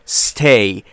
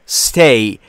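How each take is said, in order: The two takes are said the same way.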